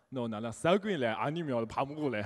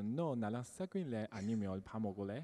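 First: It is said in a Busan accent. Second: It is said in a Seoul accent.

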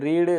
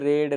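First: The vowel is long, as in 'reed'. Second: The vowel is short, as in 'red'. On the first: It is the present-tense form of the verb. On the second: It is the past or past participle form of the verb.

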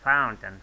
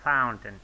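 First: The word is pronounced like 'fountain'. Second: The same.

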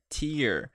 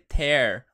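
First: It is pronounced like the noun meaning teardrop. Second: It is pronounced like the verb meaning rip. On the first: It means teardrops. The speaker calls it right. "vai ser tear" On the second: It means to rip. The speaker calls it wrong. "Não vai ser tear"

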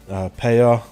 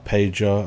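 First: The middle consonant is a y sound. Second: The middle consonant is a j sound. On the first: "The J's are pronounced Y's in Polish" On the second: "as everybody probably calls her"

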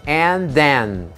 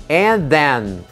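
Both takes have the same delivery.

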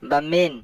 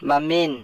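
Both takes have the same delivery.

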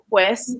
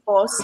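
First: The word is said in its full form. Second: The word is said in a reduced form. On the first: This is the standard form of the word. "I can't say, oh, pues" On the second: This is how people say it informally. "and people say pos"

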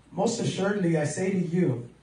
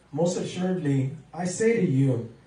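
Both takes have the same delivery.

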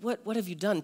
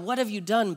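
First: It is said gently and invitingly. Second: It is said angrily, like yelling.

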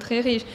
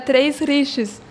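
First: Some written letters are left silent. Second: Every written letter is sounded out.

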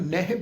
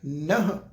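First: The word ends with a 'hi' sound. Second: The word ends on a bare 'h' sound. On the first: "ਕਈ ਸੱਜਣੇ ਦਾ ਉਚਾਰਨ ਨਹਿ ਵੀ ਕਰਦੇ ਆ" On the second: "ਨਹ ਪਾਠ ਆਏਗਾ"

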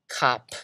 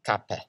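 First: The word ends abruptly on the p consonant. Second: The word ends with a short e vowel. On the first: "you kind of stop it after the last consonant" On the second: "you just let an E get in there"

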